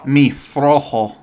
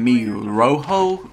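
First: The R is strongly rolled. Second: The R is plain and not rolled. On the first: The speaker calls it right. "let me show you how to roll your R's" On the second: The speaker calls it wrong. "Instead of saying"

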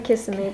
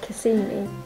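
First: It is said the way British visitors say it. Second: It is said the way Florida locals say it. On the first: "As we say Kissimmee" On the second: "when I've heard the name Floridians say it, they sort of say Kissimmee"

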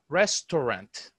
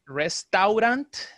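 First: The 'au' is sounded as a single o. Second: The 'au' is sounded as two separate vowels. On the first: The speaker calls it right. "The A-U, it's O" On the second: The speaker calls it wrong. "We don't say restaurant"

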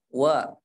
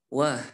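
First: The syllable ends cleanly with the breath held. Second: The syllable ends with an audible breath escaping. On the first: The speaker calls it right. "Nafasnya ditahan" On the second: The speaker calls it wrong. "jangan sampai wah"

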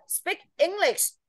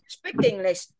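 First: The two words are said separately, not linked. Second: The k sound links into the next word. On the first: "cái đấy là nó sẽ không nối âm" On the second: "nếu như con nối âm vào"

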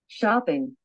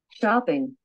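Both takes have the same delivery.

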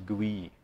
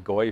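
First: The name is said in a French-style way. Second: The name is said in an English-style way. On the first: This is how the French say it. The speaker calls it right. "I think the French pronounce it as GUI" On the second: This is how it was learned, though often mispronounced. The speaker calls it wrong. "I learned it as the GOI phase for some reason"

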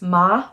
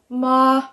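First: The pitch rises from middle to high. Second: The pitch stays high and level throughout. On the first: "the second tone is going up" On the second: "straight across, like a monotone, very even"

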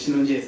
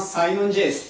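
First: The name begins with the syllable 'shi'. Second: The name begins with the syllable 'sai'. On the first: The speaker usually pronounces it this way. "僕いつもシノンJS って言ってるんで" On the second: Someone else pronounces it this way. "斉藤さんサイノンJS って言ってたんですけど"

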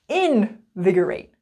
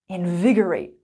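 First: The stress falls on a syllable besides 'vig'. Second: The stress falls on the syllable 'vig'. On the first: The speaker calls it wrong. "We don't say invigorate" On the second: The speaker calls it right. "So we say invigorate"

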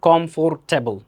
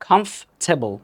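First: The middle for syllable is pronounced fully. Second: The middle syllable is dropped after comf. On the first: The speaker calls it wrong. "not comfortable" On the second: The speaker calls it right.

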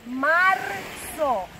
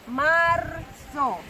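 No difference in how they are said.

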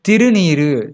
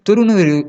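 First: The first vowel is 'i'. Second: The first vowel is 'u'. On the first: The speaker calls it right. "திருநீருங்கிறதா சரியான சொல்" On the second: The speaker calls it wrong. "துருநீருன்னு சொல்லக்கூடாது"

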